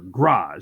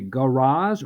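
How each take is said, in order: First: One of the A vowel sounds is dropped. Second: All of the A vowel sounds are kept.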